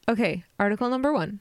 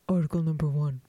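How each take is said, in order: First: It is said in a valley girl voice. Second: It is said in a plain, normal voice.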